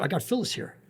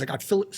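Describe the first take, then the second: First: Higher, breezy fake nonchalance; a covering tone to fool the boss; acting casual. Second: Said in the usual way. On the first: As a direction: play it off like it was the plan all along. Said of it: "he's acting like he did it on purpose". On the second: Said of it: "So he's like, I said".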